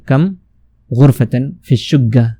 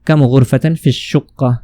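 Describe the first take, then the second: First: The last word has a doubled g sound. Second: The last word has a doubled k sound. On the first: This is everyday colloquial Arabic. "जो आमी होते हैं उसमें बोलते हैं" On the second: This is standard formal Arabic. "ये अरबी फसीह है"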